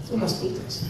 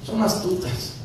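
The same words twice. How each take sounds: First: Whispered aside. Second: Said in the usual way. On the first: Shown as a demonstration. Pastor warning the congregation, repeating it in a whisper. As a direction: whisper it, much softer.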